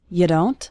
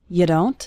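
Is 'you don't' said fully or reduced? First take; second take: reduced; reduced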